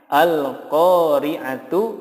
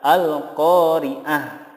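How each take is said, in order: First: The word ends with a full tu syllable. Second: The word ends with a soft h sound. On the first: The word is read without stopping on it. "Contohnya al-qari'atu" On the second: The reader stops on this word. "tetapi yang benar adalah al-qari'ah"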